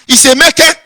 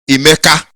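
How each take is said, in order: First: It is said the Delta Igbo way, ending in 'e'. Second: It is said the Southeast Igbo way, ending in 'a'.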